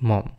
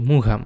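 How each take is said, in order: First: The surname is said as one short syllable. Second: The surname is said with two syllables, with a 'g'. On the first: The speaker calls it right. "আসলে এটা ভুল উচ্চারণ হবে William Somerset মম" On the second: The speaker calls it wrong. "এটাকে বলে অনেকে মুঘাম"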